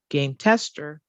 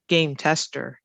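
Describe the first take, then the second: First: Game tester with TESTER stressed instead of game; wrong stress on tester. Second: Game tester with GAME stressed and raised. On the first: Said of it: "It's not game tester". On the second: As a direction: correct it: hit game, soften tester. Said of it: "No, game tester". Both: Shown as a demonstration.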